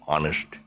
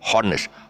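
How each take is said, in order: First: No h sound is heard at the start. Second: An h sound is heard at the start. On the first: The speaker calls it right. "you just say it's you know, honest" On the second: The speaker calls it wrong. "It's not honest. Ha, the H is not is silent again"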